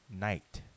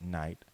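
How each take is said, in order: First: It has a short vowel and a harsh throaty sound. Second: It has a long vowel and no throaty sound. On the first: This is how the word was originally said. "with a short I, and the G H being a harsh guttural" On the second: This is how the word is said today. "today pronounced night"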